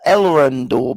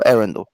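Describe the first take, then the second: First: The name is said with an L sound. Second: The name is said without an L sound. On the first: The speaker calls it wrong. "Everybody wants to pronounce the L" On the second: The speaker calls it right. "I just skip the L"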